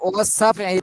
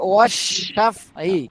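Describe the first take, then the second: First: The consonant is pronounced as a plain s. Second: The consonant is pronounced as a sh sound. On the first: The speaker calls it wrong. "পুরা স্পষ্টভাবে সি সিন হয়ে গেল" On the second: The speaker calls it right. "এখানে হবে"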